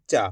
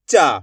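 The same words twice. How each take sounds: First: Said in the usual way. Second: "चा" with a long, stretched आ; drawn-out vowel. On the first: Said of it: "simple उच्चारण है". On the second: Shown as a demonstration. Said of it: "खींच के पढ़ देंगे".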